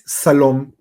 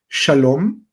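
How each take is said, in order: First: The word begins with an 's' sound. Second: The word begins with an 'sh' sound. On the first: The speaker calls it wrong. "lo único que va a alcanzar a decir es Salom" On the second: The speaker calls it right. "la palabra shalom"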